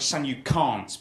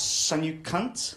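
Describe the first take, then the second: First: It is said in a standard English accent. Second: It is said in a Polish accent. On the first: The speaker calls it right. "She'd try and say phrases like" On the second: The speaker calls it wrong. "in her accent it would always come out as"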